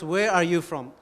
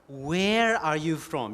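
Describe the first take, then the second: First: It is asked without special stress on where. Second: It is asked with strong stress on where.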